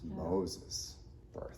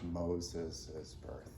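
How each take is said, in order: First: The name has two syllables, no added ending. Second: The name has three syllables with an added ending. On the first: The speaker calls it right. "This is Moses' birth" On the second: The speaker calls it wrong. "This is not Moses' birth"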